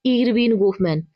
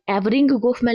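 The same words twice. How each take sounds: First: इरविन गोफमैन given carefully as "Irvin Gofman"; corrected name pronunciation. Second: एवरिंग गोफमैन sounded out as misprinted, "Evring Gofman"; misprinted name as written. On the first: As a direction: say इरविन गोफमैन with an opening "ir" and a final "vin". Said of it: "इसका जो शुद्ध उच्चारण है". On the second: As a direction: say एवरिंग गोफमैन with an opening "ev" and a final "ing". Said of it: "यहाँ पे एवरिंग गोफमैन लिखा हुआ है". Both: Shown as a demonstration.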